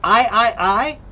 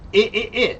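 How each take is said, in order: First: The vowel is said long, as 'eye'. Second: The vowel is said short, as 'ih'. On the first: "that's long and short" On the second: "that's long and short"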